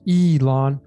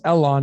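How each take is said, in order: First: The name begins with a long 'ee' sound. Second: The name begins with a short 'eh' sound. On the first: The speaker calls it right. "it's Elon" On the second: The speaker calls it wrong. "we don't say it's Elon"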